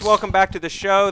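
It is said in a put-on GM voice.

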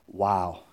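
It sounds disapproving and disbelieving.

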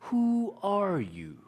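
It sounds like a calm, probing psychologist.

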